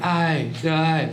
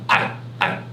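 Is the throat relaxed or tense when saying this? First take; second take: relaxed; tense. First: It is said with a light, relaxed throat. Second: It is said with a forceful, pressed throat. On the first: "你可以喉咙用轻一点" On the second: "然后喉咙用力一点"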